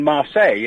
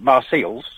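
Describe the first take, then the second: First: "Marseille" with no S at the end; French pronunciation. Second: "Marseilles" with the final S sounded; literal misreading. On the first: Caller naming the place in South France, "Marseille" without S. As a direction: say "Marseille" as mar-SAY. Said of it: "we don't call it Marseilles". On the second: Caller showing what we don't call it, "Marseilles" with sounded S. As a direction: say "Marseilles" as mar-SALES. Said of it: "we don't call it". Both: Shown as a demonstration.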